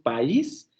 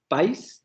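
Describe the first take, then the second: First: The two vowels fall in separate syllables. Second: The two vowels blend into one syllable. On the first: The speaker calls it right. "decimos país... se genera un hiato y se rompe el diptongo" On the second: The speaker calls it wrong. "no decimos país"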